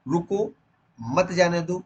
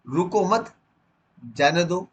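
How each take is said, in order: First: रुको, then a clear pause, मत जाने दो run together; pause after रुको. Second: रुको मत run together, a clear pause, then जाने दो; pause after मत. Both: Shown as a demonstration. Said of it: "कहाँ पर रुकना है".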